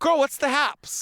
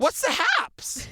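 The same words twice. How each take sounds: First: Put-on slow, sassy "Girl, what's the haps"; sassy catchphrase. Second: Slow, high drawn "what's the haps"; catchphrase. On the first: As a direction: tease her with it. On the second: Pretend. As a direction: sell the silly catchphrase. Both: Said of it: "trying to make that a thing".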